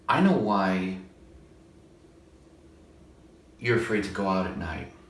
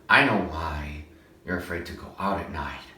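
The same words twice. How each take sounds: First: It is said in a plain natural voice. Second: It is said edgy with added breathiness.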